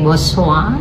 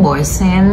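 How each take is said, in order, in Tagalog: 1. Nagtatapos ang salita sa tunog na 'wa'. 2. Nagtatapos ang salita sa tunog na 'n'. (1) "ang right pronunciation pala nito is Boswa" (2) "kung babasahin natin"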